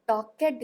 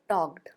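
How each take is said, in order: First: The ending is said as a separate syllable. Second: The ending joins the word as one syllable. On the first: The speaker calls it wrong. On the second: The speaker calls it right.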